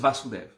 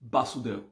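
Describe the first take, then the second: First: The name begins with a V sound. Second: The name begins with a B sound. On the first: "But it's Vasudev"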